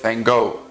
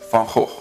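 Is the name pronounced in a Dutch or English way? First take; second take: English; Dutch. First: The name is said with an English pronunciation. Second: The name is said with a Dutch pronunciation. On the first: "The English folks say it" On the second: "In Dutch, we pronounce it as"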